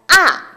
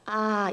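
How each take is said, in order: First: The sound falls sharply with force. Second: The sound falls weakly without force. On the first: The speaker calls it right. "이렇게 소리 나죠" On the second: The speaker calls it wrong. "이게 아니라"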